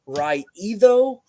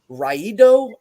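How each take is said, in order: First: The middle consonant is a soft TH sound. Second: The middle consonant is a hard D sound.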